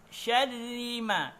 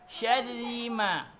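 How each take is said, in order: The two takes are said the same way.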